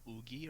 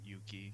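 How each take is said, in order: First: The name begins with an oo sound and a g. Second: The name begins with a y sound and a k. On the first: "with the Korean pronunciation" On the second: "they think more like Japanese"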